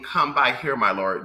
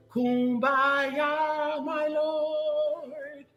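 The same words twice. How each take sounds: First: "Come by here, my lord" said plainly, every word clear; spoken original. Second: "Kumbaya, my lord" sung high and drawn out like a hymn. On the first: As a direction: spell out "Come by here" as the real words behind kumbaya. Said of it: "kumbaya is broken English, but I mean". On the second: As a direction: croon "Kumbaya" as a church spiritual. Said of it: "you know kumbaya is broken English". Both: Shown as a demonstration.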